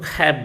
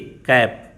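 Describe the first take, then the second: First: The first consonant has a puff of air. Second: The first consonant has no puff of air.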